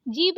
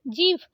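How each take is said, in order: First: जीभ said as jeeb, plain b; wrong ब for भ. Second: जीभ ending in breathed bh; correct aspirated भ. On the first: Teacher showing the mistake, जीभ with plain b. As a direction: end जीभ without a puff. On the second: Teacher correcting it, जीभ with aspirated bh. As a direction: release air on भ in जीभ. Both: Shown as a demonstration. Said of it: "जीभ नहीं जीभ".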